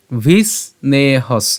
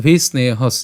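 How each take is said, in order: First: "ভিস্নেহস" slowly split as vis, ne, has; "ভিস্নেহস" in slow separate pieces; broken-up pronunciation. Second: "ভিস্নেহস" run together as one word; "ভিস্নেহস" in one connected go; joined pronunciation. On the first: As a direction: draw out each syllable of "ভিস্নেহস". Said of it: "এটা আমরা অবশ্যই একসাথে উচ্চারণ করবো". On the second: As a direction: say "ভিস্নেহস" without breaks. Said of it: "একসাথে উচ্চারণ করবো". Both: Shown as a demonstration.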